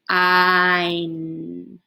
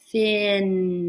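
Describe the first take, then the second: First: The vowel is long, like in fine. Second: The vowel is short, like in fin. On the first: The speaker calls it right. "make the I say its name" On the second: The speaker calls it wrong. "do the short vowel sound first"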